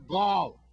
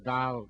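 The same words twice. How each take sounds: First: The word is said with an American pronunciation. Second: The word is said with a Virgin Islands pronunciation. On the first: "that's how you pronounce it in America" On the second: "We just say gall down here"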